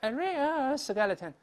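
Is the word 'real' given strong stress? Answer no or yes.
no. The word real carries no special stress. The speaker calls it wrong. "不能说a real skeleton，不是斜着读的"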